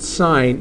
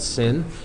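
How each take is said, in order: First: It has a long vowel, like 'sign'. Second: It has a short vowel, like 'sin'. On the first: The speaker calls it right. "this is still pronounced sine" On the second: The speaker calls it wrong. "do not pronounce that sin"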